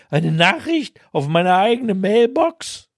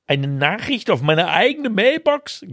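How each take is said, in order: First: Higher, hammed-up outraged cry; mock scream. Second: A touch of whining disbelief; half-hearted whimper, higher; mild whine. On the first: His cry recorded on the mailbox in the rain, mock scream. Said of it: "meinen Schrei". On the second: Told to leave a message on his own mailbox, mild whine. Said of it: "greinte ich". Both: A narrator's reading.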